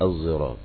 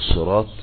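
First: The word begins with an s blended toward z. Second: The word begins with an emphatic, heavy s sound.

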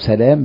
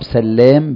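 First: The l sound is single and short. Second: The l sound is doubled and held longer. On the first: "بالفتح" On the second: "بالتشديد"

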